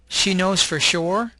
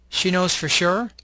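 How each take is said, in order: First: Each word is said fully and separately. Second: The words are weakened and run together. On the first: "you'll have the long form" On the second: "The second column has a reduced form"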